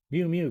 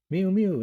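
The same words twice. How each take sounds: First: A lightly higher cat mew. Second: High, loud cat mew. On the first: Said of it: "cried Simpkin". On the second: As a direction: mew like an impatient cat at the door. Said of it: "interrupted Simpkin". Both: A narrator's reading.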